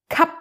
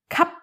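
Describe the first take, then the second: No difference in how they are said.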